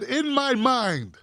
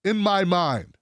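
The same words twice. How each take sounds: First: Slow, drawn-out mocking repeat; mocked quote. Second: Lower, measured read of a statement; quoted statement. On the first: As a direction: stretch the quoted words to ridicule them. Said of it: "He said". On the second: Retold or imitated. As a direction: read the quoted words low and even. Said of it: "He says".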